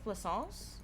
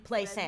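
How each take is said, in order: First: The name is said with a French pronunciation. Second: The name is said with an American pronunciation. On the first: "I think it's French, so I think it's Plaisance" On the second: "That's how an American would pronounce it"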